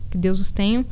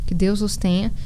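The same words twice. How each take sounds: The two takes are said the same way.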